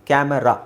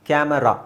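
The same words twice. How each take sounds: The two takes are said the same way.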